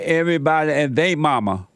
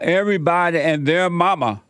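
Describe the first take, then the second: First: The word before mama has no R sound. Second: The word before mama ends with an R sound. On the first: "would say everybody and they mama" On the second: "when I say"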